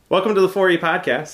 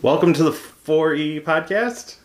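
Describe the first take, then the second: First: The greeting is said in a confident, assured way. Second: The greeting is said in an unsure, hesitant way. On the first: The speaker calls it right. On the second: The speaker calls it wrong.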